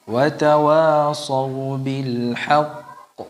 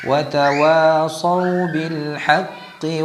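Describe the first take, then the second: First: It stops on the final consonant with no vowel. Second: The final consonant gets a vowel and runs on. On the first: The recitation pauses at this word. "Jadi kalau berhenti pada kata al-haqq ya, al-haqq gitu ya. ... Itu cara berhentinya" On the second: The recitation continues into the next phrase. "Kalau disambung pengucapan qafnya agak berbeda"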